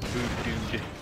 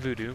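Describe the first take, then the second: First: The name ends with a d sound. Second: The name ends on the vowel oo. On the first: The speaker calls it right. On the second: The speaker calls it wrong.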